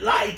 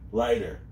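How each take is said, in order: First: The word is called out loudly with high energy. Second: The word is said calmly, without extra energy. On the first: The speaker calls it right. "He said" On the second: The speaker calls it wrong. "We wouldn't say it like that"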